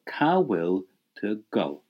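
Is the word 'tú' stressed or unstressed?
unstressed. The word 'tú' is said without extra stress. A simple question without emphasis. The speaker calls it right.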